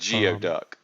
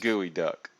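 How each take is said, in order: First: The first part sounds like 'gee-oh'. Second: The first part sounds like 'gooey'. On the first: The speaker calls it wrong. "Instead of" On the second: The speaker calls it right.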